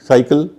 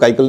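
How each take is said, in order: First: The word begins with an S sound. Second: The word begins with a K sound. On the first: The speaker calls it right. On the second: The speaker calls it wrong.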